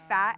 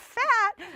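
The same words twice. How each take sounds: First: The word is said in a plain, neutral tone. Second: The word is said in a shocked, scandalized tone. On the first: It is simply a description. "I'll say fat" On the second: It is treated as an offensive word. "people will be like, oh my God, fat"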